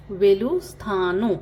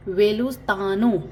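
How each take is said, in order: First: वेलुस्थानु said slowly and clearly, each syllable apart; slow it down for the class; slow teaching repeat. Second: Said in the usual way. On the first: Shown as a demonstration. Teacher repeats Telugu goodbye slowly for learners. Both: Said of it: "good bye को क्या कहते हैं".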